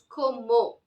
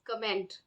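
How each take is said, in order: First: It is said the French way, like 'como'. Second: It is said the English way, ending in -ment. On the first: "But the French pronunciation is como" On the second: "Like in English, we would read it as comment"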